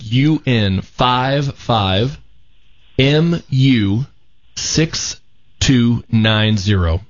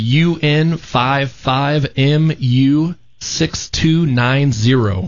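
First: The number is read out slowly. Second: The number is read out fast.

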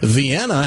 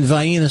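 First: It uses the northern pronunciation. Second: It uses the rural Tennessee childhood pronunciation. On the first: The speaker calls it right. "I heard somebody up in this part of the country go" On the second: The speaker calls it wrong. "that's exactly how we pronounced it"

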